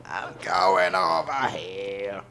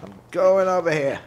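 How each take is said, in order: First: Slow, drawn out odd voice; a slow mock character voice; slow put-on voice. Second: Higher, louder, eager call; a quick raised announcement; high excited call. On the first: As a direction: stretch every word like a character. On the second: Pretend. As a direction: sing it out brightly. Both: Repeats line in two voices.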